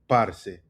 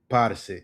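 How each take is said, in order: Both takes have the same delivery.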